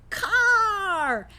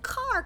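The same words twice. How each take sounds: First: The vowel sound is strongly emphasized and drawn out. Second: The opening consonant sound is strongly emphasized. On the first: The speaker calls it right. "Try the vowel" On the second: The speaker calls it wrong. "don't always stick to trying to emphasize the consonant"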